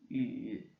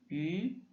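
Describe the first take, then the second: First: The pitch dips low then rises. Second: The pitch rises from mid to high.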